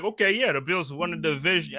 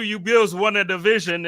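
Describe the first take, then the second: First: Put-on a half-hearted Boston accent, barely there; lightly imitated Boston accent mocking a Patriots fan. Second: Louder, hammed-up Boston accent; mock a Patriots fan in a Boston accent, pushing it; hammed-up Boston accent mocking the Bills' division win. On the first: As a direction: try a Boston sports fan accent and fall short. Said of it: "I can't even do your accent". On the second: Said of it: "You know, you do".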